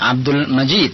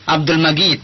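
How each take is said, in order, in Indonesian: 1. Majid diucapkan dengan bunyi j lembut. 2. Majid diucapkan dengan bunyi g keras. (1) "tentu yang benar adalah jim" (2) "kalau orang Mesir Abdul Majid, Abdul Majid seakan-akan seperti huruf ghin"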